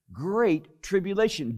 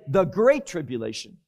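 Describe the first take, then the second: First: Said in the usual way. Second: "the" set off before "great tribulation" as the word in question; stress on THE. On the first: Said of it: "Did not say the great tribulation". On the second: Shown as a demonstration. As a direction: lean on "the" to mark it as a definite title. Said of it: "Did not say".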